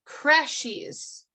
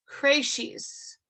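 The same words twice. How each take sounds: First: "Creches" as KRESH-eez, short e and sh; trying out pronunciation. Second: "creches" as KRAY-sheez, long ay vowel; trying another pronunciation. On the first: Teacher working out a French word, trying pronunciation. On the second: Teacher testing another French vowel, trying pronunciation. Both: Real, not acted. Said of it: "I'm not sure I pronounced that correctly".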